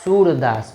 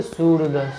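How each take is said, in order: First: सूरदास with the ऊ held long and full; proper सूरदास, ऊ stretched. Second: सूरदास with the ऊ cut short, odd voice; mock wrong सूरदास. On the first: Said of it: "स में बड़ा ऊ का मात्रा". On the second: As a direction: say सूरदास the wrong way, skipping over the long ऊ. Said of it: "अब ऐसा थोड़ी". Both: Shown as a demonstration.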